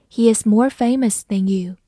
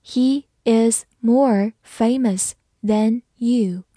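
First: Said in the usual way. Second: Slow teacher's model with a gap after each word; slow reading. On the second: Shown as a demonstration. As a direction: read it slowly, word by word. (慢速逐词朗读) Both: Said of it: "我们把这个句子读一遍".

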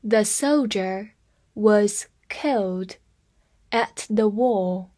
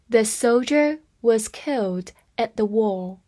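First: Slow, word by word; teacher slowing down for students; slow read. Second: Said in the usual way. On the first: Shown as a demonstration. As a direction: read "The soldier was killed at the war" slowly in chunks. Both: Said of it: "我们慢慢来读一下".

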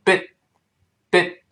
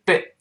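First: "bit" cut off with the t held, not released; unreleased final t. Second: Slow "bit" with the t sounded at the end; released final t. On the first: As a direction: stop the tongue on the t of "bit" without a puff. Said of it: "读快了之后又会发生失去爆破". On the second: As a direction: say "bit" carefully, finishing on an audible t. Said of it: "那么读慢了是bit". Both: Shown as a demonstration.

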